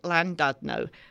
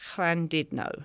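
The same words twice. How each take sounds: First: The name is said with an English pronunciation. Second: The name is said with a Welsh pronunciation. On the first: "an Englishman would pronounce it" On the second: "The Welsh pronounce it"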